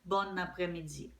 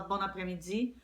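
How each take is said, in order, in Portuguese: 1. Um som de n liga as duas palavras. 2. Um som de n liga as duas palavras.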